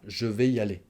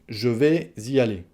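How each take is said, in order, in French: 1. Elle est prononcée rapidement, les sons sont enchaînés. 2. Elle est prononcée avec soin, en faisant la liaison entre vais et y. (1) "si on parle rapidement, on dira" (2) "J'ai fait la liaison"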